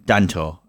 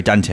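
First: Danto, ending in an o sound; mispronounced Dante. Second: Said in the usual way. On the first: Real, not acted. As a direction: say Danto with a final "toh". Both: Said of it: "uh, sorry, Dante".

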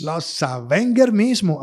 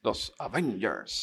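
First: Los Avengers said slowly and louder, with a hard g; slow Avengers, g sounded. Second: Los Avengers drawn out slowly, Avengers as avéners. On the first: Insisting on his own version to his friend, Avengers slow with a hard g. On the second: Repeating the word slowly for his friend, Avengers drawn out. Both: Shown as a demonstration. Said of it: "tell me how to say".

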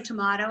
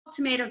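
First: "tomato" with AH in the middle. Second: "tomato" with AY in the middle. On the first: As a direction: say "tomato" as "to-mah-to". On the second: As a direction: say "tomato" as "to-may-to". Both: Shown as a demonstration. Contrasting regional pronunciations.

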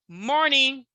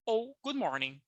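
First: Slow "Morning ou good morning", falling on "Morning"; teacher slowly contrasts both greetings; slow model. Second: Said in the usual way. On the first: Shown as a demonstration. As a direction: lay the two options out slowly. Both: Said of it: "você pode falar morning".

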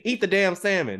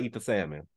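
First: High-pitched, fed-up order as God; mock exasperated yell. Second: Low, soft, matter-of-fact reply; calm answer as God. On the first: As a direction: play God losing patience, voice raised in pitch. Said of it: "he gotta yell at me". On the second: Acted. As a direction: answer simply, voice lowered. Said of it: "He'd be like".

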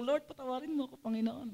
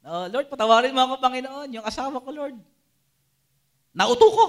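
First: Soft, humble mock confession to the Lord; softly voiced guilty prayer; hushed prayer. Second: Louder, begging Lord for forgiveness, ending in a high cry on nauto ko; mock loud confession, peaking at the end; loud pleading prayer. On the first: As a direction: pray it quietly, like owning up. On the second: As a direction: ham up the guilty plea, building to a loud high finish. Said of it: "di ba?".

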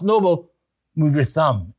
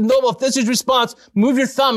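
First: Said in the usual way. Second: Higher, quicker eager asking; excited plea. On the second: Retold or imitated. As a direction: press him gently but thrilled, move your thumb. Urging Noble again.

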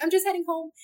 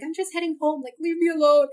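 First: Retold polite reply. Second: Imagined snappy brush-off. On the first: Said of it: "but I was like". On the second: Retold or imitated. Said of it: "I didn't say leave me alone".

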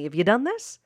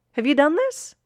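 First: Said in the usual way. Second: Higher and louder; emphatic repeat. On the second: Real, not acted. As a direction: ask again, pressing the listener.

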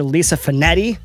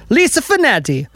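First: Said in the usual way. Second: High-pitched playful Italian flourish on the name; mock Italian. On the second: Host thanks the shop's manager, mock Italian flourish.

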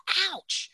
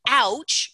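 First: 'Ouch' said much higher and soft, falling; pained ouch. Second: Said in the usual way. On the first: Shown as a demonstration. Speaker showing listeners the response, higher and soft. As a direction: let out a small hurt 'Ouch'. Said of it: "all you need to do is go". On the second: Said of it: "which is one of my other tools".

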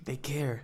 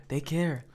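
First: Said in the usual way. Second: Whispering. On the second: Acted. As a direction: breathe it as an aside. Repeats phrase, then whispers it.

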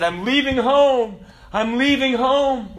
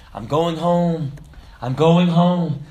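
First: High, loud, drawn-out mock wail; lamenting cry. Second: Slow, loud, imitated joyful cry; tears of joy. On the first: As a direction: wail it slowly, imitating a crying man. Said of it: "he was kind of lamenting and crying". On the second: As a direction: draw it out in heartfelt joy. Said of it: "he was crying tears of joy".

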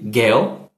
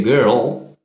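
First: Put-on girl with no R, short and crisp; British girl. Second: Put-on girl drawn out slowly with a curled R, like gerol; American girl. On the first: Showing the easier British girl. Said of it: "É mais fácil a gente dizer girl". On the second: Contrasting it with the harder American girl. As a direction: stretch girl with a rolled American R. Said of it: "do que girl". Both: Shown as a demonstration.

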